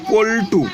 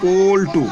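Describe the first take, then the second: First: পল্টু called out clearly, with the ল stressed; পল্টু shown as a model word for the students; demonstrating a word. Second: পল্টু drawn out slowly so the ল can be heard; পল্টু spelled out by sound for the class; slow demonstration. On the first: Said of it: "দ্বিতীয়টা বলছি". (পল্টু শব্দটা জোর দিয়ে উচ্চারণ) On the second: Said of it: "এই যে পল্টু শব্দটা বলছি". (পল্টু ধীরে ধীরে উচ্চারণ) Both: Shown as a demonstration.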